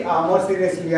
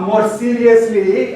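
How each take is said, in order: First: Said in the usual way. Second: "more seriously" said high, loud and slow; drawn-out, raised "more seriously"; emphatic. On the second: Shown as a demonstration.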